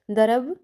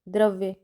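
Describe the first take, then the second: First: द्रव with the final य dropped, as darav; द्रव spoken as darab; careless mispronunciation. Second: Said in the usual way. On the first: Shown as a demonstration. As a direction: say द्रव, clipping off द्रव्य's ending. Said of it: "द्रव बोला जाता है". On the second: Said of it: "द्रव्य शब्द पर ध्यान नहीं देने के कारण".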